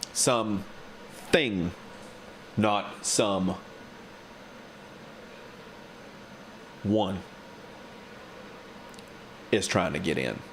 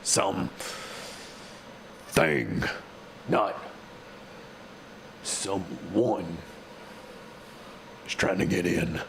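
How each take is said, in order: First: It is read in a plain, normal voice. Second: It is read in a gruff put-on voice. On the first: The speaker calls it wrong. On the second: The speaker calls it right.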